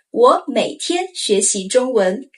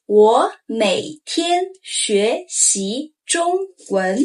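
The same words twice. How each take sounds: First: Said in the usual way. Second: 我每天学习中文 very slowly; drawn-out, every tone clear; slow model sentence. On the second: Shown as a demonstration. Teacher asking learners to say it aloud, slow. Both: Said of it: "Say aloud".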